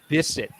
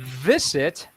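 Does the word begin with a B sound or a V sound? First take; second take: B sound; V sound. First: The word begins with a B sound. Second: The word begins with a voiced V sound. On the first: The speaker calls it wrong. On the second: The speaker calls it right. "add more voice to that"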